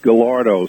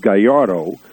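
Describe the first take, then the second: First: The name has an anglicized English pronunciation. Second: The name has a Spanish pronunciation. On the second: "In Spanish it would be Gallardo"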